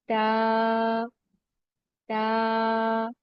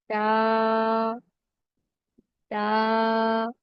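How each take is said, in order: Both takes have the same delivery.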